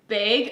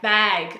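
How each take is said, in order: First: It is said with a Canadian vowel. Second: It is said with a heavy American A.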